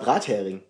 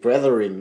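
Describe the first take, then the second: First: The word is pronounced like a German word. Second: The word is pronounced like an English word. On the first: The word names fried herring. "Und das war Brathering" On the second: The word was misread as an unfamiliar foreign word. "das liest sich ja durch das Ing hinten und durch das TH in der Mitte wie ein englisches Wort"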